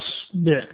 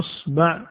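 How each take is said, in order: First: The b is followed by an i vowel. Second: The b is followed by an a vowel. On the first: "ولا بالكسر" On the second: "ولا بالفتح"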